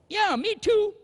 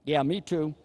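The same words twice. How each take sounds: First: Much higher, sheepish "Yeah, me too"; a newlywed husband squirming on the phone. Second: Said in the usual way. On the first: Retold or imitated. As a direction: squeak it out to dodge the words. Husband dodging saying I love you.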